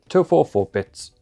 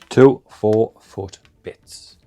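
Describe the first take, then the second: First: The phrase is spoken quickly. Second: The phrase is spoken slowly. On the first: The speaker calls it wrong. "Said that too fast" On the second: The speaker calls it right. "I've got to slow it down"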